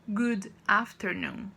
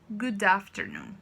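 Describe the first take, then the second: First: The two words are said separately. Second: The two words are joined as one. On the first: The speaker calls it wrong. "em vez de falarmos" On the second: The speaker calls it right. "como se fosse uma coisa só"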